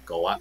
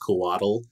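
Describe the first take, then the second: First: The ending has a clipped 'tl' sound. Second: The ending sounds like the English word waddle. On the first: The speaker calls it right. "if you wanted it to be more accurate" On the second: The speaker calls it wrong. "almost like you're saying waddle, that's fine"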